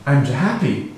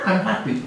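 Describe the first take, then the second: First: Said in the usual way. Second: "I'm happy" said high through a laugh. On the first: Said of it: "Or if I say". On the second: Shown as a demonstration. Speaker repeating the phrase to his audience, laughing.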